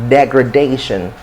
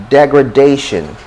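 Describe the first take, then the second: Both takes have the same delivery.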